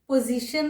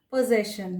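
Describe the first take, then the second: First: "पोजीशन" with a long ee in the middle; common mispronunciation. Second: "पोजेशन" with e in the middle, po-ZESH-un; correct pronunciation. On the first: Teacher showing learners the mistaken "पोजीशन", with ee in the middle. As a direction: say "पोजीशन" like position. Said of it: "नहीं होगा". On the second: Teacher giving learners the right "पोजेशन", with zesh in the middle. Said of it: "कोई लोग गलती से". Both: Shown as a demonstration.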